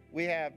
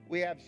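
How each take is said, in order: Both takes have the same delivery.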